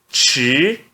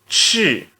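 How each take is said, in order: First: It is said with the second tone. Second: It is said with the fourth tone. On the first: "no segundo tom" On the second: "E no quarto tom"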